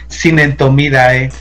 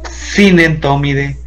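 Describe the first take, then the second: First: The name ends with an 'idae' sound. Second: The name ends with an 'ide' sound. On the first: "él prefiere que los, eh, los pronuncien de esa manera" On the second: "Yo prefiero que los hagan la pronunciación I D"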